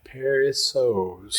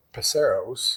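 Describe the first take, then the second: First: Paceros slowly sounded out as "PAIR-ee-sohz"; careful pronunciation. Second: Paceros said as "puh-SAIR-ohz"; mispronounced name. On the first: Shown as a demonstration. Host reads the tricky name Paceros, slow careful PAIR-ee-sohz. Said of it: "I'm looking at it like". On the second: Real, not acted. Host tries the name Paceros, mispronounced as puh-SAIR-ohz. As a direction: put the weight on SAIR in "Paceros". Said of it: "I know I'm gonna mess it up".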